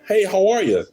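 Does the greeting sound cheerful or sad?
cheerful. The greeting sounds cheerful and upbeat.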